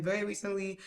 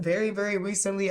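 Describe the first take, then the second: First: Said in the usual way. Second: Overdone, insistent "very, very recently"; exaggerated emphasis. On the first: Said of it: "but I was like". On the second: Shown as a demonstration. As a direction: lay it on a bit too thick. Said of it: "I didn't say, like, that".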